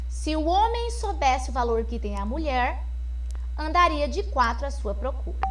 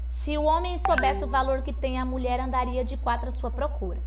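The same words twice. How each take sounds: First: There is a pause after the word mulher. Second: It is read quickly with no pause anywhere. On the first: "com uma vírgula, depois da palavra mulher" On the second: "não tem pontuação nenhuma, então eu não tenho pausa para respirar"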